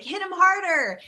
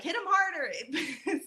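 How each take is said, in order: First: High shouted cheer from the crowd; yelled. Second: Soft, slow, laughing translation. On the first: Retold or imitated. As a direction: call it out loud like a parade crowd. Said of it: "people would yell, like". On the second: Shown as a demonstration. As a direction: chuckle through the words. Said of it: "which means, like".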